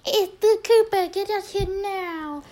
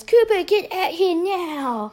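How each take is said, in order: First: Urgent call. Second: Ethan rushes in calling Cooper, high mock yell; urgent call. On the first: Retold or imitated. Redoing the brother's call to Cooper, very high-pitched mock holler. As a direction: exaggerate a brother's urgent squeal of a summons. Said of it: "Yeah, it's definitely". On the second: Brother summoning Cooper outside, urgent drawn-out mock yell. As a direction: imitate a brother's urgent high, slow holler. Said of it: "comes rushing in and says".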